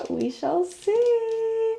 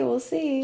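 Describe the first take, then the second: First: Very slow and much higher, hammed-up suspense; mock-ominous tease. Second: Said in the usual way. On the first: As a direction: stretch it out like a playful cliffhanger. Teasing about his acting.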